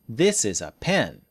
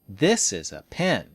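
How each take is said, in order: The two takes are said the same way.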